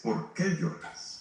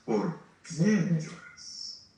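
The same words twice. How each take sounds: First: "qué" whispered slowly and high, set against "quién"; stress on qué. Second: "quién" drawn out very slowly and voiced, set against "qué"; stress on quién. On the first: Preacher contrasting the angels' "qué" with Jesus' question, whispered stress. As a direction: lean on "qué" in a hushed, slow question. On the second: Preacher contrasting Jesus' "quién" with the angels' "qué", slow stress. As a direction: stretch "quién" long and full-voiced. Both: Shown as a demonstration. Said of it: "Pero la pregunta que le hace Jesús es".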